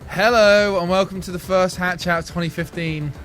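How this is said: It sounds tired and jaded.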